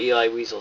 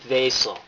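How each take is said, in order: First: The surname starts with a W sound. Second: The surname starts with a V sound. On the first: The speaker calls it wrong. "It's a V" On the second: The speaker calls it right. "for the correct pronunciation"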